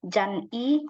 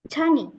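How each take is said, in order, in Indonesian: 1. Suku katanya dipisah dengan jeda. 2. Suku katanya menyambung tanpa jeda. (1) "dibaca sepenggal-sepenggal" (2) "langsung Chani. Nyambung"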